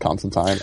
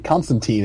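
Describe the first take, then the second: First: The last syllable rhymes with fine. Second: The last syllable rhymes with teen. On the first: The speaker calls it right. "it's Tyne. Rhymes with fine" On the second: The speaker calls it wrong. "it'll be spelled T E E N"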